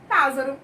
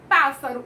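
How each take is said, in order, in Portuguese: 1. A consoante do meio soa como z. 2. A consoante do meio soa como s. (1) "Se eu colocasse um S só, ia ficar pássaro. E não tá certo" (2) "O certo é pássaro. Então, para dar o sonzinho de S"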